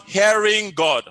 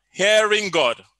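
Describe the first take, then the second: No difference in how they are said.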